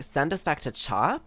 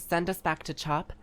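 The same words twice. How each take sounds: First: The voice rises at the end, like a question. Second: The voice falls at the end, like a statement. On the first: It asks where they could be sent. The speaker calls it right. "it's a question, not a statement" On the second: It states that they should be sent back. The speaker calls it wrong. "it sounds like she's just saying"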